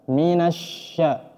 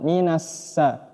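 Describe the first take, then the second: First: The middle consonant is a spread sh sound. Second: The middle consonant is a plain s sound. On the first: The speaker calls it right. "nafas ... menyebar" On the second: The speaker calls it wrong. "bukan minassa"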